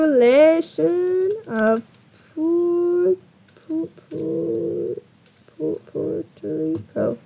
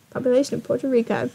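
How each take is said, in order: First: Slow, stretched words with halting restarts; absent-minded sounding out. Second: Said in the usual way. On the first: Real, not acted. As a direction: drag out each syllable as if typing it. Sounds out words while searching.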